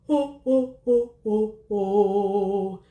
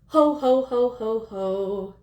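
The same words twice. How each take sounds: First: It is said in a warm, dark Santa voice. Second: It is said in a thin, unresonant voice.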